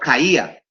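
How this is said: The d between the vowels is dropped, Andalusian-style.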